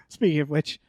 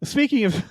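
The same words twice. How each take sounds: First: Giggling restart of speaking of which; laughing. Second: Said in the usual way. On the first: Real, not acted. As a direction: let a chuckle break into speaking of which.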